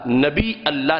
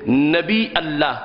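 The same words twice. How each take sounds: First: A glottal stop ends nabi before Allah. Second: A glottal stop ends nabi before Allah.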